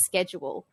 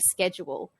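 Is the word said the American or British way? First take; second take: American; American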